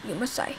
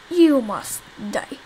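First: Said in the usual way. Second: Dragged out slowly, each word weighted; slow menacing. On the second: Shown as a demonstration. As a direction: draw it out like a villain's threat. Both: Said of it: "repeats it slowly".

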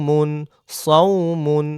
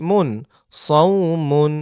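No difference in how they are said.

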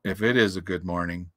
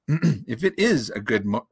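First: Low gloomy donkey voice; gloomy Eeyore. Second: Said in the usual way. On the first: A narrator's reading. Donkey doubting it is a good morning, gloomy. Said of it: "said Eeyore gloomily". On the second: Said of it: "never very good at catching the voices".

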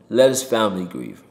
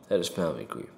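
First: Said in the usual way. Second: Soft repeated plea. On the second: Real, not acted. Repeats plea, much softer.

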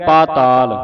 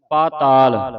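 First: ਪਾਤਾਲ again with the long aa held; long vowel. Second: ਪਾਤਾਲ with a long first aa, paataal not pataal; long vowel. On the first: Teacher repeats ਪਾਤਾਲ with the long vowel for the class. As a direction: say ਪਾਤਾਲ as paa-taal. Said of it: "ਇਹ ਪੱਪੇ ਨੂੰ ਕੰਨਾ ਲੱਗਾ ਹੈ". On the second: Teacher corrects ਪਾਤਾਲ to a long first vowel. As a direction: stretch the first syllable of ਪਾਤਾਲ. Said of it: "ਪਤਾਲ ਨਹੀਂ ਬੋਲਣਾ". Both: Shown as a demonstration.

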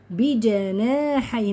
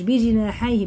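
First: "بجناحيه" slow, as "bi-ja-naa-hayh"; correct open vowel. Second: "بجناحيه" loud, as "bi-ji-naa-hayh"; wrong vowel. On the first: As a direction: draw out "بجناحيه" with open a after j. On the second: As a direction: mimic the slip, i after j in "بجناحيه". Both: Shown as a demonstration. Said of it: "مش".

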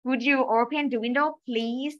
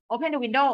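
First: Slow, courteous ask; polite request read slowly. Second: Short, flat order; just bark the order; plain command; blunt command. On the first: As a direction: ask nicely, drawing out please. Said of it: "มันก็จะดูสุภาพอะ". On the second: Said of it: "มันเป็นประโยคคำสั่งนะ". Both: Shown as a demonstration.

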